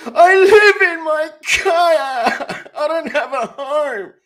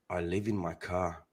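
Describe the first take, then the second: First: Loud, high, drawn-out fake sobbing cry; mock wailing. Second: Low, slow and hushed; quiet confession. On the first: Prankster to an electricity telemarketer, mock bawling. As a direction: wail it slowly at full volume, hammed-up. Repeats the confession as a wailing outburst. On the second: Acted. Prankster confessing to an electricity telemarketer, quietly. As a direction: say it softly and slowly, way down low. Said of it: "Like that".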